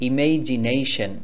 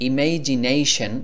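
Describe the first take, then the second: Both takes have the same delivery.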